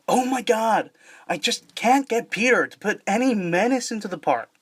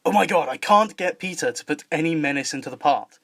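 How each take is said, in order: First: Higher-pitched American cartoon character; American accent, pitched up for animation. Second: English accent in a normal pitch; English voice with crisp T's and no R's. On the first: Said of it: "did an American accent". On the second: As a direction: deliver it in a southern English accent. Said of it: "in contrast to the English accent". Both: Shown as a demonstration.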